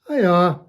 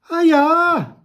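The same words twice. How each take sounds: First: It is said plainly, without extra emphasis. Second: It is said with extra emphasis.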